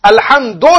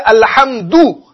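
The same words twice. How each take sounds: First: "अल्हम्दो" ending in o, the mistaken form; wrong vowel demo. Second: "अल्हम्दु" ending in a clear short u; correct vowel demo. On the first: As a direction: end "अल्हम्दो" on o to show the error. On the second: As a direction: end "अल्हम्दु" on u, not o. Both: Shown as a demonstration. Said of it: "अल्हम्दो नहीं पढ़ेंगे".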